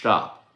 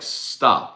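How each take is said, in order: First: The word begins with a sht sound. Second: The word begins with a plain st sound. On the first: The speaker calls it wrong. "not stop" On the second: The speaker calls it right. "S T is st, like stop"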